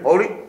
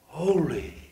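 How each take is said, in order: First: It is said flatly, like a robot. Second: It is said with hushed awe. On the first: It is repeated without feeling. The speaker calls it wrong. "they don't say that robotically" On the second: Something new and wonderful has just been seen. The speaker calls it right. "They will bow in awe"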